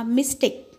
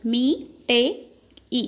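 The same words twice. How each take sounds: First: Said in the usual way. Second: MISTAKE broken into "Me, te, e" with pauses; syllable by syllable. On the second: Shown as a demonstration. Teacher counting syllables for children, Me, te, e said separately. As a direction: sound out each beat on its own. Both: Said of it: "we have to split it".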